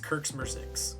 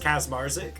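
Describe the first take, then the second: First: The name gets a Polish pronunciation. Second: The name gets a US East Coast pronunciation. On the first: "in Poland it's" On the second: "East Coast, it's"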